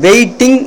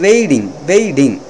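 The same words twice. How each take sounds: First: The word is pronounced in a casual way. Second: The word is pronounced in a careful, clear way. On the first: The speaker calls it wrong. "இதை வெயிட்டிங் என்று சொல்வதை விட" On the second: The speaker calls it right. "அந்த ஒரு உச்சரிப்பு வந்து ரொம்ப பொலைட்டாக இருப்பதற்காக"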